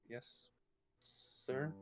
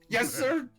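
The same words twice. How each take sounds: First: It is said in a shaky, timid way. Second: It is said firmly, with pride.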